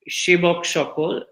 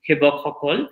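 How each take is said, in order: First: It is said with a non-Assamese pronunciation. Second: It is said with the Assamese pronunciation. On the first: The speaker calls it wrong. "what are called the Shebok Shokol" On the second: The speaker calls it right. "the Assamese pronunciation would be Hebok Hokol"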